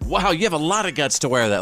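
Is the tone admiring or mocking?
admiring. The voice sounds warm and admiring. The speaker is praising the wearer. "Like, I'm proud of you"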